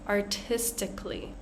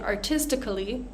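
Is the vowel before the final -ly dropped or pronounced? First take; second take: dropped; pronounced. First: The vowel before -ly is squeezed out. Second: The vowel before -ly is fully pronounced. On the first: The speaker calls it right. "we're going to squeeze out that vowel" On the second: The speaker calls it wrong. "So instead of saying artistically"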